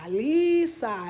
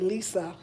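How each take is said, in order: First: The first vowel is held out long. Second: The first vowel is short and plain. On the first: The speaker calls it right. "They holding that E out there. And that A is an I sound" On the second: The speaker calls it wrong. "they don't say Lisa"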